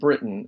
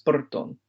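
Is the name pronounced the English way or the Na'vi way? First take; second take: English; Na'vi. First: The name has its English pronunciation. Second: The name has its Na'vi pronunciation. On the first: "my name in Na'vi has a very different pronunciation than Britain" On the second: "it comes out as Burton in Na'vi"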